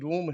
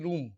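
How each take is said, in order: First: The vowel is long 'o', like roam. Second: The vowel is long 'oo', like room. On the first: This is the usual present-day pronunciation. "R ओ M E रोम है देश" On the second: This is how people said it in old times. "पुराने time में लोग pronounce करते थे रूम"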